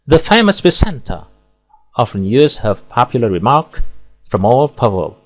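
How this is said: There are pauses only between whole phrases. The speaker calls it right. "Di sini pemenggalan tepat dan ideal. Di sini pemenggalan per frasa"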